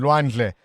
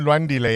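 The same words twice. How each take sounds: First: Lwandle in two syllables, d running straight into l; corrected name. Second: Lwandile in three syllables, with an extra "di"; mispronounced name. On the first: Radio host repeats the caller's son's name, corrected to Lwandle. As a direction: say Lwandle with no vowel between d and l. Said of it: "that's correct". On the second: Radio host checks a caller's son's name, mispronounced as Lwandile. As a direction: say Lwandile with an i between the d and the l. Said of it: "Lwandle, beg your pardon". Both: Real, not acted.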